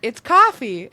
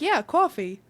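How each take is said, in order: First: "coffee" with an open ah, KAH-fee, punched loud; mock correction, KAH-fee; imitated standard COFFEE. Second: "coffee" with a rounded aw, CAW-fee; retold defence of Jersey-style "coffee"; own Jersey COFFEE. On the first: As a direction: say "coffee" without the New York aw. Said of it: "I can't even say it". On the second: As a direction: insist on CAW-fee, higher and louder. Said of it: "so I say coffee".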